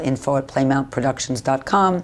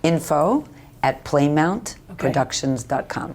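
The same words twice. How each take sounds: First: It is said at a normal, quick pace. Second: It is said slowly and carefully.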